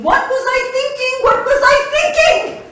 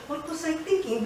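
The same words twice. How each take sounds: First: Builds from a cry to a loud laughing wail; exasperated outburst. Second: Said in the usual way. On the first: Acted. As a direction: ask yourself in rising disbelief, louder each time. Rising self-reproach, repeated.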